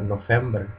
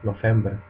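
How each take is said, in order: No difference in how they are said.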